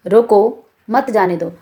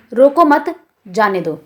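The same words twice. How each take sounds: First: "रोको" alone, pause, then "मत जाने दो"; comma after रोको. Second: "रोको मत" together, pause, then "जाने दो"; slowly, pausing between मत and जाने; comma after मत. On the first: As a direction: break between रोको and मत. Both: Shown as a demonstration. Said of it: "जिसे हम कॉमा बोलते हो".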